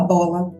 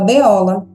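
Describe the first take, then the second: First: It has two syllables, starting with 'bo'. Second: It has three syllables, starting with 'be-o'. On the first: The child blends the letter sounds into the word. The speaker calls it right. "Ela não fala bola" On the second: The child reads the letter name instead of its sound. The speaker calls it wrong. "fala beola"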